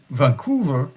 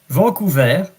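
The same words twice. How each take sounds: First: The name is pronounced with English sounds. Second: The name is pronounced with French sounds. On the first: "in English" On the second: "to pronounce it in French"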